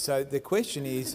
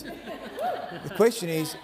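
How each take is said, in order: First: Said in the usual way. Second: The question is, drawn out slowly with a laugh; slow, stressed repeat. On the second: Real, not acted. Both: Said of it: "we'll just have one more go at this".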